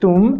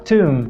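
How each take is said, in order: First: The t is released with little puff of air. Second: The t is released with a strong puff of air. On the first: The speaker calls it wrong. "parar de falar tum" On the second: The speaker calls it right. "começa a falar tum"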